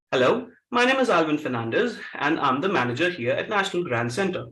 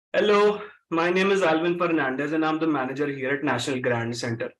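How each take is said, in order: First: Low Karachi-accented English with reduced R's; urban Karachi accent. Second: Low Punjabi-accented English with vibrating R's. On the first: Trainer demonstrates the converted sentence to a class, urban Karachi accent. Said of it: "Karachi accent". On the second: Trainer demonstrates the same sentence to a class, Punjabi accent. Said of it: "let's say I'm a Punjabi". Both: Shown as a demonstration.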